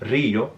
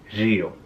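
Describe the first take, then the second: First: The R sound is strongly trilled. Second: The R sound is buzzy, like 'zh'. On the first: "instead of" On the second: "the R will be more like ella"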